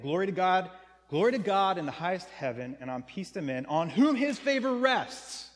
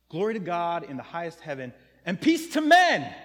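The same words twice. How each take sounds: First: The exclusive reading of the verse; reading for group A. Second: The inclusive reading, all people; reading for everyone. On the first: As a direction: stress whom in "on whom his favor rests". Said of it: "another way to read it". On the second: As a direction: burst out on "peace to men". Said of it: "there's only one group". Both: Shown as a demonstration.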